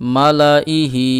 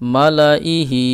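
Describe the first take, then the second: Both takes have the same delivery.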